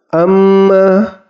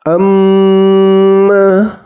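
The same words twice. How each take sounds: First: The double m has no held nasal hum. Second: The double m has a long nasal hum. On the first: The speaker calls it wrong. "tidak terdengar dengung, jadi bacaannya salah" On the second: The speaker calls it right. "Yang benar itu harus didengungkan"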